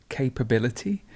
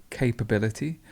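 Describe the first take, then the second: Both takes have the same delivery.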